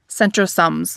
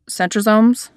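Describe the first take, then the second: First: The final syllable sounds like 'sums'. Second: The final syllable sounds like 'somes'. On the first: The speaker calls it wrong. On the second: The speaker calls it right.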